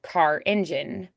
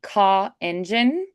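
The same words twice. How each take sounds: First: The R at the end of car is pronounced. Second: The R at the end of car is dropped. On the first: The speaker calls it right. "then I'm going to do it" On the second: The speaker calls it wrong. "that's kind of hard to understand"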